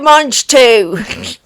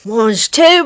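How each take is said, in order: First: Mock French, louder, leaning on mange; a Del Boy again, more punch; Del Boy impression. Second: Cheeky mock French, rising on tout; a Del Boy from Only Fools and Horses; Del Boy impression. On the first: Host repeats the Del Boy line, louder mock French. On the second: Host doing Del Boy for her cohost, lightly mock French. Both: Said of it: "Little Del Boy reference".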